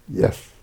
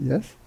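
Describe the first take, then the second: First: It falls like a statement. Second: It rises like a question.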